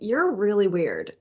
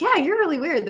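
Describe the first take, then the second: First: It sounds disapproving and unfriendly. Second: It sounds friendly and approving.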